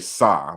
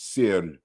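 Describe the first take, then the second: First: The word is said without any trilled r. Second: The word is said with a nasal uvular trill. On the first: The speaker calls it wrong. "some people will say sa, but it's not sa" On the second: The speaker calls it right. "this is a a nasalized uvular trill"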